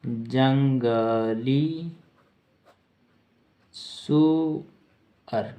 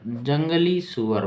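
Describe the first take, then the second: First: जंगली सुअर broken into long syllables with a big pause between; slow dictation. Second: Said in the usual way. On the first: Shown as a demonstration. Teacher dictating the meaning of boar, syllable by syllable.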